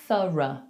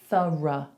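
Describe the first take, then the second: First: The final vowel is a weak, neutral schwa. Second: The same.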